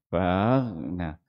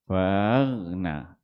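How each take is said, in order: No difference in how they are said.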